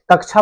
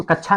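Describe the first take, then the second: First: कक्षा said "kak-chha"; correct pronunciation "kaksha". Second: कक्षा said as "kach-chha"; कक्षा with a doubled chh, no middle k; wrong pronunciation "kachha". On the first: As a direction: sound the middle k in कक्षा. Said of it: "कक्षा बोलेंगे". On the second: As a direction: drop the k before chha in कक्षा. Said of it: "इसको कक्षा नहीं बोलेंगे". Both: Shown as a demonstration.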